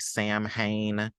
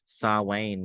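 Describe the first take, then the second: First: It sounds like 'sam-hane', with an h sound. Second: It sounds like 'sow-in', with no h sound. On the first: The speaker calls it wrong. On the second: The speaker calls it right.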